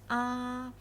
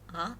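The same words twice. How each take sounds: First: The pitch stays high and level. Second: The pitch rises from low to high. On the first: "the first tone is a flat tone" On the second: "The tone is rising"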